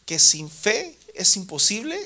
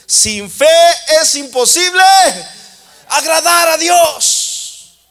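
First: Said in the usual way. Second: "imposible" held high and loud, slow and stretched; thundered repeat. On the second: Shown as a demonstration. Preacher driving the verse home to the church, loud and slow.

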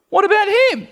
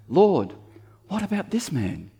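First: Squeaky high whine, much higher and louder; high-pitched voice. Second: All very religious. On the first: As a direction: Peter asking in a silly high squeak. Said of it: "in a high-pitched voice like that". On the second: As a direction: put on a hammed-up churchy tone. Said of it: "here's how it sounds all very religious". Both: Pretend.

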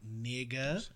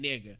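First: "Nigga," with a hesitant rising tune, softly; unsure questioning. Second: Said in the usual way. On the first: Shown as a demonstration. White guy testing the word, unsure rising "Nigga,". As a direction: ask "Nigga," like a timid question. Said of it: "say it like it's a question". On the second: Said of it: "in the correct sense while talking".

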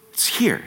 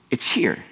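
First: Breathy hushed whisper, pitched up; whispered repeat. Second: Said in the usual way. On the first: Shown as a demonstration. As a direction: whisper it as an intimate echo. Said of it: "It's here. (plain take before)". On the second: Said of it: "It's here. (whispered repeat)".

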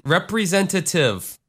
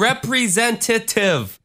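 First: "representative" said cleanly, every syllable in place; crisp, complete "representative" to prove a point; corrected pronunciation. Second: High, slow mock of a botched "representative"; mockingly overpronounce "representative"; exaggerated, slowed "representative", needling a friend. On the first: Shown as a demonstration. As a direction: show how "representative" should sound, higher. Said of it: "No, I didn't". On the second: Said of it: "I was mocking you".

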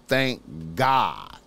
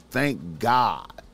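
Both takes have the same delivery.

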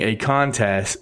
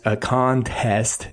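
First: "contest" drawn out and stumbled over; slow, fumbled ending on "contest"; tongue-tied. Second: "contest" slowly split into CON-TEST; slow retry, over-pronouncing both halves of "contest"; careful correction. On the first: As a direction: trip slightly over "contest". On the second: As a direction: sound out "contest" with a crisp second syllable. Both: Real, not acted. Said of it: "easy for me to say".

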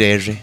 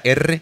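First: "R" with the trill lost; imperfect R. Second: "R" as a proper Spanish erre; perfect R. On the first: Showing how his speech changed, "R" with its roll lost. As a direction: say "R" softened, without a clean Spanish roll. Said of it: "empecé a decir R". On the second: Showing the R he lost, a perfect rolled "R". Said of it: "mi R perfecta". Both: Shown as a demonstration.

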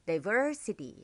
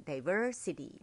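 First: "diversity" with a long, leaned-on VER; stress on VER. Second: "diversity" said smoothly, stress still on VER; natural stress. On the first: Teacher demonstrating the stressed syllable to learners, stress on VER in "diversity". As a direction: draw out the second syllable of "diversity". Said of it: "เขาก็บอกว่าให้ stress ที่ ver". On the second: Teacher showing learners the practised word, natural "diversity" stressed on VER. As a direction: ease "diversity" into natural speech with a lighter VER. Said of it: "เรียนเสียงจนให้มันธรรมชาติขึ้น". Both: Shown as a demonstration.

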